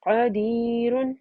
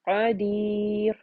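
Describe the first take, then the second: First: The word ends with an -un ending. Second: The word ends on the r, with no vowel. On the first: "क़दीरुन को पढ़ा जाएगा क़दीर" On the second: "दम्मातन की जगह सुकून आ जाएगा"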